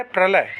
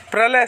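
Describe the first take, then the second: First: प्रलय as "par-lay"; wrong misplaced r. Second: प्रलय as "pra-lay"; correct pr cluster. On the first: Teacher showing students the mistake, r misplaced. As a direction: put the r of प्रलय after the vowel. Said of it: "प्रलय गलत होगा". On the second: Teacher giving students the right form, cluster intact. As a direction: join p and r to start प्रलय. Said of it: "प्रलय सही होगा". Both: Shown as a demonstration.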